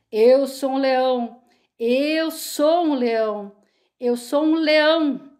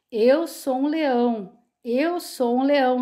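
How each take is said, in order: First: Slow, louder mock roar of a timid sheep; trying to roar. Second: Said in the usual way. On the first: A narrator's reading. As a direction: push the words out like a roar. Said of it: "uma entonação de rugido". (tentando rugir, devagar e mais alto)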